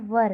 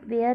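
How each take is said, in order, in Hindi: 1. स्वर 'her' जैसा सुनाई देता है। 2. स्वर 'air' जैसा सुनाई देता है। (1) "वर है" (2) "यहाँ पे देखिए वेयर नहीं है"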